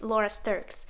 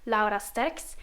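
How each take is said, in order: First: The name is pronounced the English way. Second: The name is pronounced the Dutch way. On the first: "if I say it in English" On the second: "if I say my name in Dutch"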